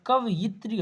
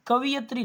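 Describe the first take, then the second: First: कवयित्री said "ka-va-yit-ri", with y before i; कवयित्री with a falling close, va then yit; correct form shown. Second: कवियत्री said "ka-vi-yat-ri", with i before y; कवियत्री stressed as the wrong spelling, vi then yat; wrong form marked. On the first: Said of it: "होता है". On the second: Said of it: "नहीं होता". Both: Shown as a demonstration.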